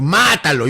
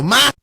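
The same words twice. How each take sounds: First: High, loud shout from the goal; goalkeeper's shout. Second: Much higher, even louder yell; louder higher shout. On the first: Goalkeeper yelling at his striker, loud high shout. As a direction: bark it at the striker to finish. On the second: Keeper screaming at striker to shoot, top-volume yell. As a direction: scream it at full power from the goal. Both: Retold or imitated. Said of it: "yo le grito".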